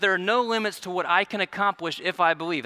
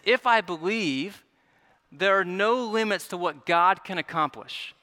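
First: "I" leaned on in "what I can accomplish"; stress on I. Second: "God" leaned on in "what God can accomplish"; stress on God. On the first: Preacher voicing the wrong interpretation, stress on "I". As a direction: put the weight on "I" as the one accomplishing. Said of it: "That's not the right interpretation". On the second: Preacher correcting the interpretation, measured stress on "God". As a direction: pause after "believe", then weight "God" over "I". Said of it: "But the right interpretation is". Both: Shown as a demonstration.

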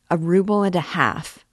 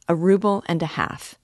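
First: Indignant, a bit louder outcry; cried out. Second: Said in the usual way. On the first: A narrator's reading. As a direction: throw the price back at her in disbelief. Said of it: "cried the young man".

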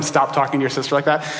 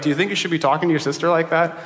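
First: "Stop talking" as a plain order, not a question; parental command. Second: "like that" as a quick, leading question; parental rhetorical question. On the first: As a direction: tell them "Stop talking" evenly, as an instruction. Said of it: "I'm telling him". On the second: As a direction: ask "Do you think you should" quickly, as a parent's pointed question. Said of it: "doesn't say it as a question". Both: Retold or imitated.

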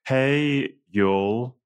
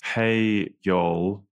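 First: Hammed-up Southern "Hey, y'all", Hey pitched higher; American accent on request. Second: Mild American Southern "Hey, y'all"; a light try at a Southern drawl; American accent attempt. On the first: The speaker redoes his American accent for Nate. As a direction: lean into a Southern American drawl. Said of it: "Could you do that again, James?". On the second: The speaker greets listeners trying an American accent. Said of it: "me trying to do an American accent". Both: Shown as a demonstration.

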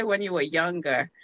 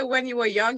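First: "younger" said lower, ending with -er; stress on younger. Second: Said in the usual way. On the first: Shown as a demonstration. Guest pointing out the host's wording, stress on younger. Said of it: "you say". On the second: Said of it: "you don't say".

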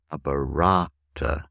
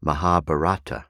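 First: Mahabharata with the stress on the third syllable from the end; Mahabharata, ma-ha-BHA-ra-ta; Sanskrit stress. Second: Mahabharata with the stress on the second syllable from the end; wrong English stress. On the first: Teacher gives the correct Sanskrit stress. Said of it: "third from the end". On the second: Teacher mimics the common English mispronunciation. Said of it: "very often mispronounced as". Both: Shown as a demonstration.

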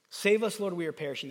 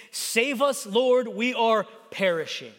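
First: Said in the usual way. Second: Slow, emphatic mild cry for help; spaced-out plea, understated. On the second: Acted. Disciples call Jesus in the storm, mild crying out. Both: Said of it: "They cried out to Jesus".

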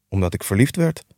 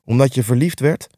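First: Said in the usual way. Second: Incredulous echo with a touch of grumble; grumbling. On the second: A narrator's reading. Scrooge repeating his nephew's reason, mildly grumbling. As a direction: throw it back as a doubting question. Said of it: "bromde Scrooge".

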